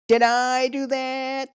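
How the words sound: It is said in a put-on character voice.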